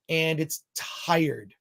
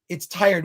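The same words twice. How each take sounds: First: Slow, drawn out. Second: Said in the usual way. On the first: Real, not acted. Reviewer drawing out his verdict on the film, slow. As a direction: stretch and it's tired out very slowly.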